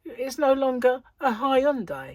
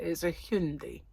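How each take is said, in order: First: Hyundai said "high-un-die"; Hyundai pronounced "high-un-die", the British way; own pronunciation. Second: Hyundai said "hyun-dee"; Hyundai pronounced "hyun-dee" with a mocking tone; mock foreign pronunciation. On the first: Shown as a demonstration. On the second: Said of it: "That's what it says".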